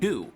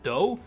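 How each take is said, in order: First: The vowel is an 'oo' sound. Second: The vowel is an 'oh' sound. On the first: "especially when you mispronounce the last syllables" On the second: "not do"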